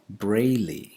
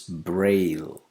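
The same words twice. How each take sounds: First: An extra vowel sound is added at the end. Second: The word ends without an extra vowel sound. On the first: The speaker calls it wrong. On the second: The speaker calls it right.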